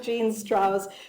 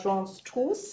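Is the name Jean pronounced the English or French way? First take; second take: English; French. First: Jean is pronounced with an English sound. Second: Jean is pronounced with a French sound. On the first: The speaker calls it right. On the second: The speaker calls it wrong.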